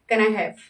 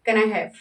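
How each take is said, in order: First: The words are said quickly and run together. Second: The same.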